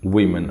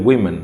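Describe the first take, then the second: Both takes have the same delivery.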